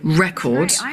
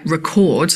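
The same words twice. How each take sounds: First: It carries the stress pattern of the noun. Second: It carries the stress pattern of the verb. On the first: It is the thing that was recorded. The speaker calls it right. "like the noun" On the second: It is the action of recording. The speaker calls it wrong. "like the verb"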